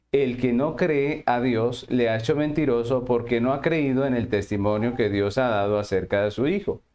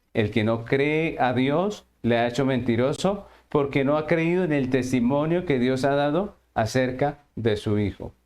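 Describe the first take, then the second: Both takes have the same delivery.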